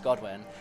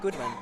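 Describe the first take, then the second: First: The first syllable sounds like 'god'. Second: The first syllable sounds like 'good'. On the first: The speaker calls it right. "it's Godwin" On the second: The speaker calls it wrong. "It's not Goodwin"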